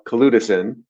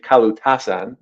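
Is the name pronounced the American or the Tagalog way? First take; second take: American; Tagalog. First: The name is said with American English pronunciation. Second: The name is said with Tagalog pronunciation. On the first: The speaker calls it wrong. "we decided that we're gonna Americanize it" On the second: The speaker calls it right. "That's the correct way to say it. That's the Tagalog word"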